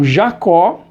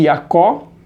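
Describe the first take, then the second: First: The name begins with a 'zh' sound. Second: The name begins with a 'y' sound.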